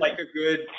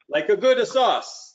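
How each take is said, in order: First: Said in the usual way. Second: Slow, hammed-up Italian accent, pitched higher; terrible Italian accent. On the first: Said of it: "That's my terrible Italian". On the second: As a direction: lean into a cheesy Italian accent, drawing out "good sauce". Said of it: "That's my terrible Italian accent".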